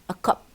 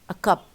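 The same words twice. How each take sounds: First: The word 'a' is reduced and unstressed. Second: The word 'a' is reduced and unstressed.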